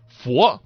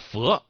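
First: The vowel is a rounded o sound. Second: The vowel is an unrounded e sound.

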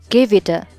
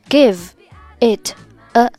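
First: The words run together in one linked chunk. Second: The words are said separately without linking.

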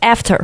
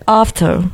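First: It is said with an American accent. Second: It is said with a British accent.

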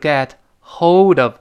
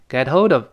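First: The h is pronounced and the words are separate. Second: The h is dropped and the words run together. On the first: The speaker calls it wrong. "而不是get hold of" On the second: The speaker calls it right. "读成get hold of"

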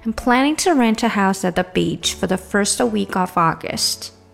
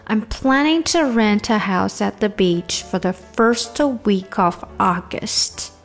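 First: The sentence is spoken at a faster pace. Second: The sentence is spoken at a slow pace. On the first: "好加快点" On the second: "整句来先慢一点哈"

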